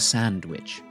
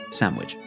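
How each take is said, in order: First: The word is said in a careful, full form. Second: The word is said in its common, relaxed form. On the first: "The sandwich" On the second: "or more commonly pronounced as sandwich"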